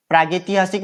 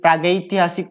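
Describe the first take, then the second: First: प्रागैतिहासिक with plain "ge"; incorrect form. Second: प्रागैतिहासिक with diphthong "gai"; correct form. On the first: Teacher showing students the error, प्रागैतिहासिक with "ge" for "gai". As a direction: say प्रागैतिहासिक as praa-ge-ti-haasik. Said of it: "नहीं होके". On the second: Teacher correcting the vowel sign, प्रागैतिहासिक with clear "gai". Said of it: "ऐ की मात्रा आ गई". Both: Shown as a demonstration.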